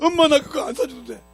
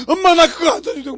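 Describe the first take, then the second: First: Put-on high, louder wailing plea of a boy; crying child. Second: Put-on a high, loud crying boy's plea; crying child. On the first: Lost boy running around crying for his mother, high wail. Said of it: "울고 다니면 막". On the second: Lost boy begging his mother not to leave, high teary plea. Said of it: "그때서 뭐라 그러죠?".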